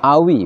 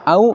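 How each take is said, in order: First: The word ends with an added 'i' vowel. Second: The word ends on a bare 'w' glide. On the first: The vowelless letter takes a vowel to meet the next consonant. "kita ganti dengan kasroh sehingga menjadi awi" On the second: The letter keeps its vowelless form. "wawu sukun yang tadinya bunyinya au"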